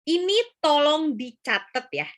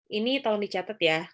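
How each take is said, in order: First: The request is said with strong emphasis. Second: The request is said flatly without emphasis. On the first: The speaker calls it right. "itu adalah penekanan" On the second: The speaker calls it wrong. "tapi bilangnya kayak gini"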